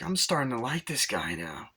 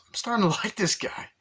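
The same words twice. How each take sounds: First: Said in the usual way. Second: High-pitched put-on voice; Tom Arnold. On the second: Agent listening in, hammed-up high-pitched admiration. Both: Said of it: "Tom Arnold goes".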